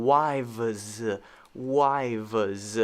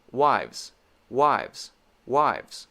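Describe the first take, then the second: First: "wives" stretched slowly into two syllables; slowed wrong way. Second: "Wives" said fast as one tight syllable; quick wives. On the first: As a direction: drag out "wives, wives" as "wai-vez". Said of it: "I'm not saying". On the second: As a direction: rattle off "wives" quickly with lip-teeth V. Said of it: "but I am doing it quickly". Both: Shown as a demonstration.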